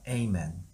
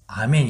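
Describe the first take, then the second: First: It is said the American way. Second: It is said the familiar Korean way. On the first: The speaker calls it right. "아멘이라고 합니다" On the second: The speaker calls it wrong. "이거 미국에서는 아멘이라고 안 해요"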